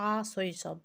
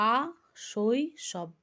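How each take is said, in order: First: Said in the usual way. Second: আ শৈশব broken up with a clear pause before শৈশব; split into syllables. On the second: Shown as a demonstration. Teacher splitting the example word into syllables for students. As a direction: say আ, stop, then শৈশব, marking each syllable. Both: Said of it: "তিনটি দল রয়েছে".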